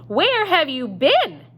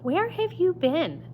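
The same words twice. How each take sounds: First: It is said in a big blustery voice. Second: It is said in a plain voice.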